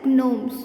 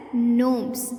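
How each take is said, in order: First: GNOMES with an audible hard G before the N; G wrongly sounded. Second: GNOMES starting straight on the N sound; silent G. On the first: Teacher showing pupils the mistake, GNOMES with sounded G. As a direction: say GNOMES as g-nomes. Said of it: "we do not pronounce it as". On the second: Teacher modelling the word for kids, GNOMES with silent G. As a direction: say GNOMES like "nomes", no G. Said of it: "We pronounce it as". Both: Shown as a demonstration.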